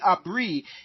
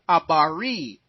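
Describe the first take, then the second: First: The b and r run together without a vowel. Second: A full vowel separates the b and the r. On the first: It reflects a European style of speaking. The speaker calls it wrong. "they wouldn't say abri if they're taking away the European influence" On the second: It reflects the original African way of speaking. The speaker calls it right. "It would be abari"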